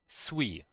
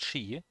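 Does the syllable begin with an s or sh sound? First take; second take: s; sh. First: It starts with s and keeps the u. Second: It starts with sh and has no u. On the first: The speaker calls it right. "but it should be sui" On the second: The speaker calls it wrong. "pronounced as just she, like the, the U is not even there"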